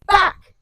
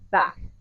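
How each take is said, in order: First: It is said with a sudden boost of intensity. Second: It is said with ordinary, mild intensity.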